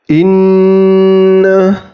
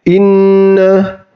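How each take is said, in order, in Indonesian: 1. Dengung huruf n ditahan selama dua harakat. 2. Dengung huruf n ditahan selama satu harakat. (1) "contohnya dua harokat misalnya inna" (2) "tidak boleh dibaca satu harokat saja, misalnya inna ... Jadi itu bacaan yang salah"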